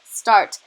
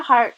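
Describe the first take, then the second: First: "start" said with a crisp st and a falling tune, a touch louder as the fix; corrected word. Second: "heart" said with a clear h and the vowel of heart, in place of start; slip of the tongue. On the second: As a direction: blurt "heart" by mistake, the h sound where the st should be. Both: Real, not acted. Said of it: "not heart, start".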